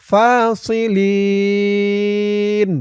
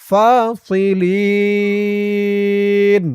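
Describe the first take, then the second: The two takes are said the same way.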